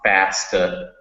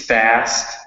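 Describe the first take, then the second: First: An extra vowel syllable follows the final consonant. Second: The word ends sharply on the final consonant. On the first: The speaker calls it wrong. "you added an extra syllable" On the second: The speaker calls it right. "you really cut the word off"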